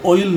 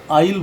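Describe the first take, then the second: First: ऑयल as "OH-il", round O; rejected OI reading. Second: आइल as "AA-il", open aa; open AA reading. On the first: Teacher tells students what not to say, O-sounded ऑयल. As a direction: round the first vowel of ऑयल. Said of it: "इसको ऑयल नहीं बोलेंगे". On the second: Teacher tells students what to say, aa-sounded आइल. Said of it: "आइल बोलेंगे". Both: Shown as a demonstration.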